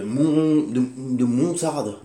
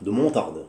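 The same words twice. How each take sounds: First: Slow emphatic. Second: Said in the usual way. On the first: Shown as a demonstration. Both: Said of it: "entre la montagne et la moutarde".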